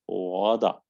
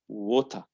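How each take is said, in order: First: American accent, a D-like T and an R. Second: British accent, a clear T and no R. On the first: "In American" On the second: "the first word in British"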